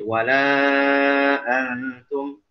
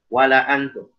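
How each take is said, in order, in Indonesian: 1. Vokal setelah l dibaca panjang. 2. Vokal setelah l dibaca pendek. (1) "minimal dibaca empat harokat" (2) "kita tidak membaca alif pada lam di situ, kita langsung baca"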